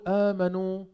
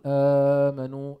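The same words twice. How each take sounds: First: The opening long vowel is held for two counts. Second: The opening long vowel is held for four counts. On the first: "بتقول آمنوا عند حفص" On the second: "عند ورش بتقول آمنوا أو آمنوا"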